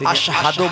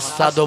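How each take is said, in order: First: The middle consonant is a 'sh-h' sound. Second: The middle consonant is a plain 's' sound. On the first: This is the intended form of the word. The speaker calls it right. "তিনি আশহাদু বলতে পারতেন না" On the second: This is how an injured tongue produced it. The speaker calls it wrong. "আসাদু বলতেন"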